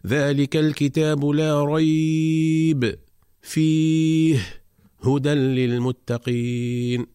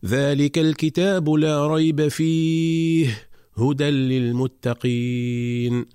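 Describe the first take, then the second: First: Slow chant with a pause after ريب and again after فيه; chanted demonstration of the incorrect double pause; wrong double stop. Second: Slow chant running لا ريب فيه together, then a pause after فيه before هدى; chanted recitation with the stop on فيه; stop after fihi. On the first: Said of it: "فلا يصح أن نقرأ". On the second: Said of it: "فنقرأ على النحو التالي". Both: Shown as a demonstration.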